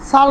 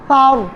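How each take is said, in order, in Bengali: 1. প্রথম ব্যঞ্জনটি সাধারণ s ধ্বনি। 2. প্রথম ব্যঞ্জনটি th ধ্বনি। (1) "সার নয়" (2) "জিহ্বার আগা উপরের দুই দাঁত আগার সাথে লাগিয়ে"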